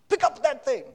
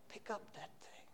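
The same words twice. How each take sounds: First: The request is said in a harsh tone. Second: The request is said in a gentle tone. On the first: The speaker calls it wrong. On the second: The speaker calls it right.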